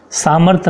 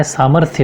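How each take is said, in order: First: "सामर्थ्य" said as saamarth, dropping final y; wrong pronunciation. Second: "सामर्थ्य" ending in a sounded thya; correct pronunciation. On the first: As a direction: cut "सामर्थ्य" off at the th. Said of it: "सामर्थ्य नहीं होता है". ("सामर्थ्य" को सामर्थ बोलना) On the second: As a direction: finish "सामर्थ्य" with th plus y. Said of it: "सामर्थ्य होता है". ("सामर्थ्य" के अंत में थ्य साफ़) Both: Shown as a demonstration.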